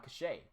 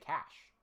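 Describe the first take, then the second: First: It is said with two syllables, ending in 'ay'. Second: It is said as one syllable rhyming with 'mash'. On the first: This is the form used in Britain. "most people in, like, Britain and whatnot will say uh, cachet" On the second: This is the form used in America. "most people in America would just say cash"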